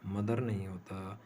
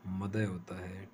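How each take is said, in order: First: मदर with the final r sounded; wrong pronunciation. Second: मदर without the r, ending madhuh; non-rhotic pronunciation. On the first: Teacher demonstrating the common mistake to students, r pronounced. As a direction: say मदर ending in a clear r. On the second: Teacher giving the correct form, r silent. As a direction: drop the r at the end of मदर. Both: Shown as a demonstration. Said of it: "आर को pronounce नहीं किया जाता".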